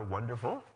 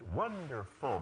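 First: The pitch stays up on the last syllable. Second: The pitch falls on the last syllable. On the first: The speaker sounds less confident. The speaker calls it wrong. "But the last syllable, which is different" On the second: The speaker sounds confident and decisive. The speaker calls it right. "the whole word goes, it's wonderful"

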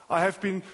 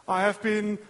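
Both takes have the same delivery.

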